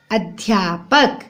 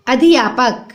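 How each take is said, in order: First: "अध्यापक" slowly as adh-yaa-pak; fuse dh and y in "अध्यापक"; low, drawn-out "अध्यापक"; correct pronunciation. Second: "अध्यापक" as a-di-yaa-pak; four syllables in "अध्यापक"; wrong pronunciation. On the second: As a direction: add i after d in "अध्यापक". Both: Shown as a demonstration. Wrong then right spelling, read aloud.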